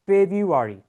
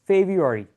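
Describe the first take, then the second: The two takes are said the same way.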